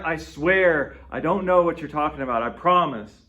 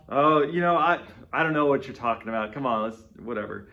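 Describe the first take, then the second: First: Louder, earnest insistence; insistent swearing. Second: Casual, brush-off denial, fading at the end; playing it off. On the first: Retold or imitated. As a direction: plead your honesty, pressing hard. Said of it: "we want to emphasize our own honesty". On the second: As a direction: shrug it off like it's nothing. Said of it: "we play it off".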